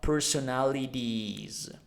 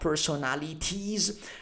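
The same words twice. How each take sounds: First: The T between vowels is softened. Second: The T between vowels is sharp. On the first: The speaker calls it right. "but personalities" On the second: The speaker calls it wrong. "not personalities"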